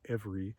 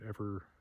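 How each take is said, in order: First: The word ends with a clear ee vowel. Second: The word ends without the final ee vowel. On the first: "The majority pronunciation is every" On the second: "my sort of native pronunciation of the word is ever"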